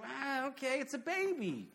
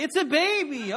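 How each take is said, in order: First: Higher, deadpan and dismissive; mock unimpressed bystander. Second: Much higher and louder, incredulous; loud mock exasperation, it's a baby; exasperated. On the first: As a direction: shrug it off like a bored onlooker. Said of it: "everyone else is like". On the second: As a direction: deflate the doting parents with disbelief. Mocking over-proud parents.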